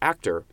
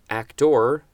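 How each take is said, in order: First: The word is said in a relaxed, reduced way. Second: Every sound of the word is clearly articulated. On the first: "I would normally just say actor" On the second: "I'm pronouncing that very clearly"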